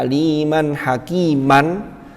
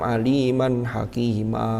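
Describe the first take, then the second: First: The last word ends with an n sound. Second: The last word ends in an extra-long vowel. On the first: This is the original form when reading on. "aslinya aliman hakiman" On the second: This length is not permitted when stopping. "tidak bisa milih jadi enam"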